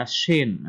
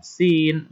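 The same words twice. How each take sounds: First: "shin" with a broad sh; wide shin. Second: "Sin" with a thin, narrow s. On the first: Teacher contrasting letters for pupils, widened sh in "shin". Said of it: "agak melebar ya". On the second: Teacher contrasting letters for pupils, thin s in "Sin". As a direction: say "Sin" with a fine, narrow hiss. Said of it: "Sin ini tipis". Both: Shown as a demonstration.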